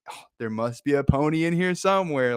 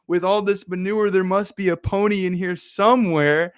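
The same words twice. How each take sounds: First: Lightly voiced hopeful line, near own voice; a touch of the kid's delight; mild hopeful quote. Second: Higher, eager, delighted voice; excited hope. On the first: Speaker re-quotes optimist line. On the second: Acted. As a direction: sound sure a pony is hiding in there. Optimist twin hopeful about pony.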